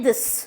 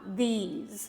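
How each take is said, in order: First: It sounds exactly like the word 'this'. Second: It sounds different from the word 'this'. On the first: The speaker calls it wrong. "इसको भी पढ़ते हैं दिस, that is wrong" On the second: The speaker calls it right. "There is a difference"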